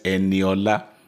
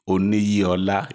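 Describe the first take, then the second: First: The name begins with an 'E' sound. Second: The name begins with an 'Oni' sound. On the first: The speaker calls it right. "it's Eniola" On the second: The speaker calls it wrong. "It's not Oniyiola"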